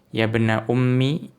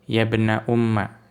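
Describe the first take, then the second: First: The last word ends with an 'i' vowel. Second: The last word ends with an 'a' vowel. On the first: "Kalau mau dibaca kasroh" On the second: "dengan akhiran fathah"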